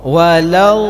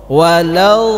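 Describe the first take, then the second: No difference in how they are said.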